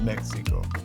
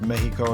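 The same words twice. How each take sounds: First: The x is said as a ks sound. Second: The x is said as a breathy h sound. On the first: The speaker calls it wrong. "and not Mexico" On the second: The speaker calls it right. "it's pronounced like an H ... that's why it's pronounced Mexico"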